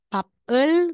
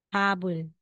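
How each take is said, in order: First: The middle consonant is a P sound. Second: The middle consonant is a B sound. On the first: The speaker calls it wrong. "aside na sasabihin mong papel" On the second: The speaker calls it right. "Kaya letter B na po yung bigkas natin"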